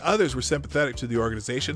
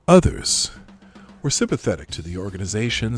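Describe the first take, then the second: First: It is read in a plain, ordinary way. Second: It is read in an exaggerated, dramatic way.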